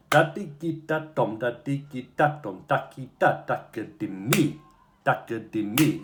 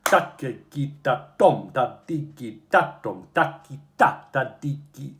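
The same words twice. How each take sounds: First: "da-ki-da" stressed on the pulse; accent on the junction. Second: Chanted, "da-ki-da" stressed off the pulse, slowed; wrong accent chant. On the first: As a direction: hit the junction point with the beat. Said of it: "So ta-ki-ta. is the accentuation". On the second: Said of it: "sorry, got it wrong". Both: Shown as a demonstration.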